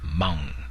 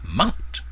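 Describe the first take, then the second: First: The word is said with a long tone. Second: The word is said with a short tone. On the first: "in the long tone" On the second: "in the short tone"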